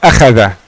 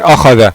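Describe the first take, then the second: First: Every sound is said thin and light. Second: Every sound is said thick and heavy. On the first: "semuanya tipis" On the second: "semuanya tebal"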